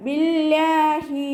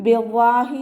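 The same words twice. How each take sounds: First: ബില്ലാഹി slow and chanted, lam kept light and lowered. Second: ബില്ലാഹി with a heavy, full lam instead of a light one; wrong pronunciation. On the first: Teacher gives students the correct form, ബില്ലാഹി chanted lightly. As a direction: recite ബില്ലാഹി slowly with a thin, light lam. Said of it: "താഴ്ത്തി ഉച്ചരിക്കുക, ലൈറ്റാക്കി". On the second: Teacher shows students the mistake, ബില്ലാഹി with a heavy lam. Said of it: "ബില്ലാഹി എന്ന് ഉച്ചരിക്കൂല". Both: Shown as a demonstration.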